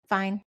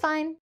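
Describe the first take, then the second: First: It is said in a flat, low-energy tone. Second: It is said in a bright, cheerful tone. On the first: Something is bothering her that she is not sharing. "One word, flat tone" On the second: Her day really was fine. "it's like a happy, that sounded kind of scary"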